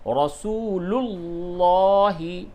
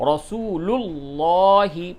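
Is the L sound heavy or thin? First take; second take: heavy; heavy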